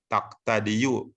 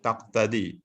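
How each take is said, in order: First: The word ends with a final 'u' vowel. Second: The word ends without a final 'u' vowel. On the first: The full ending is spoken, which feels heavy. The speaker calls it wrong. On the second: The final vowel is left unpronounced. The speaker calls it right. "Enggak ada kan?"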